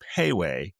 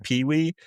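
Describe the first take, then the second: First: The first syllable sounds like 'pay'. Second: The first syllable sounds like 'pee'. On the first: "The exact pronunciation is Payway" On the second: "but I always say Pee Wee"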